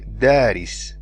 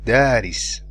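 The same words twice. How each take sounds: No difference in how they are said.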